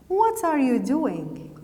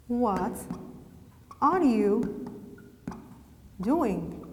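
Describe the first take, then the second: First: Said in the usual way. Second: Slow dictation with long pauses between words. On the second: Shown as a demonstration. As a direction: dictate it in small chunks for writing. Dictates example word by word.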